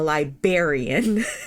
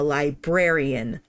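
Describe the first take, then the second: First: The first R sound is dropped. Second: The first R sound is pronounced. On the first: The speaker calls it wrong. "not a librarian" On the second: The speaker calls it right. "I am a librarian"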